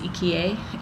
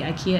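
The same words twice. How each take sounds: First: The first vowel sounds like 'ee'. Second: The first vowel sounds like 'eye'. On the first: The speaker calls it right. "it's IKEA" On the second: The speaker calls it wrong. "when you try to say IKEA"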